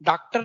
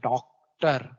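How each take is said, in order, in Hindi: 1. पहला स्वर एक सादा खुला 'aa' है। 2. पहला स्वर एक गोल होठों वाला 'aw' है। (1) "डॉक्टर नहीं बोलते" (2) "आ नहीं है, आ, आगत ध्वनि आ"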